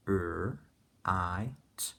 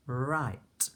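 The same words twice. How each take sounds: First: "r, i, t" as three separate sounds; sounding out. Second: Said in the usual way. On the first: Shown as a demonstration. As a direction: break "r, i, t" apart, sound by sound. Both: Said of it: "sounding out each sound".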